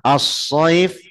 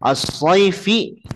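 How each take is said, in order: First: The word ends on the final consonant. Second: The word ends with a short vowel. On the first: The reading stops at this word. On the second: The reading continues without stopping.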